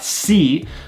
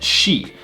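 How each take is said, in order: First: It begins with a plain s sound. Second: It begins with an sh sound. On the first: The speaker calls it wrong. "not si" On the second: The speaker calls it right. "but shi"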